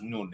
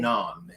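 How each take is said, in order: First: The word is pronounced as nun. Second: The word is pronounced as naan. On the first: This is how the word is said in Farsi. "it's mispronounced nun in, in Farsi" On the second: This is the word's original form. "It's actually naan"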